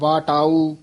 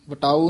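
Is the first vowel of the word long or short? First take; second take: long; short. First: The first vowel is long. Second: The first vowel is short. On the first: The speaker calls it right. "ਵਾਟਾਊ ਦੋਵੇਂ ਕੰਨੇ ਬੋਲਨੇ ਹਨ" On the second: The speaker calls it wrong. "ਵਟਾਊ ਨਹੀਂ ਕਹਿਣਾ"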